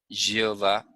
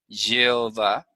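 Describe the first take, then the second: First: The word starts with a soft y sound. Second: The same.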